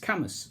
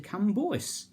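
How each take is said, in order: First: It is said like Cammus. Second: It is said as spelled, like Cambwa. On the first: The speaker calls it right. "it's Camus" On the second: The speaker calls it wrong. "if you didn't pronounce the place name correctly, you're in trouble"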